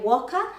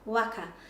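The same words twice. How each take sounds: First: The first vowel sounds like 'oh'. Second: The first vowel sounds like 'ah'. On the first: The speaker calls it wrong. "people commonly say waka" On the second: The speaker calls it right. "we actually should be saying waka"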